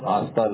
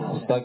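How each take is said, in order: First: The first vowel is drawn out long. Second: The first vowel is short. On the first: "ہانستا لمبا کر دیا" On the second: "ہنستا کے بجائے"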